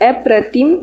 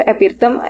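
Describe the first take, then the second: First: Said in the usual way. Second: अपिरतम said with the r and i swapped, a-pi-ra-tam; teacher stumbles, saying अपिरतम by mistake; slip of the tongue. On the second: Real, not acted. Teacher listing synonyms mispronounces the word.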